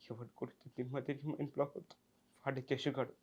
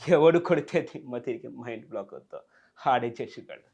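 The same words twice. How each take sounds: First: It is said in a sad, pitiful way. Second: It is said in a comic, laughing way.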